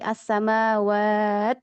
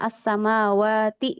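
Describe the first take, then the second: First: The word ends on a clipped, unvoweled t. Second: The word ends with a full ti syllable. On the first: The reading stops at this word. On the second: The reading continues without stopping.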